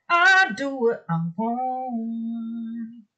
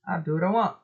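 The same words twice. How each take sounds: First: Very slow, drawn-out sung line; singing. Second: Said in the usual way. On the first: Real, not acted. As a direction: sing it out, holding the last word. Repeats it in song.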